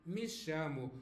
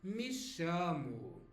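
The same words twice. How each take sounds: First: Said in the usual way. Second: Me chamo said slowly, shu-mu ending; slow it down so learners catch the Brazilian order; drawn-out me chamo with a falling end; slow Brazilian demo. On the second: Shown as a demonstration. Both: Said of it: "more likely to hear they say".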